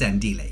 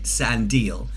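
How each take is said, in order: First: The name is said in its original way. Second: The name is said in an anglicized way. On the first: The speaker calls it right. "but actually it's Sandile" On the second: The speaker calls it wrong. "I was pronouncing it like someone someone who's British"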